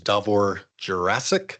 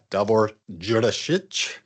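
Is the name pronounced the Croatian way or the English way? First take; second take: English; Croatian. First: The name is pronounced the English way. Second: The name is pronounced the Croatian way.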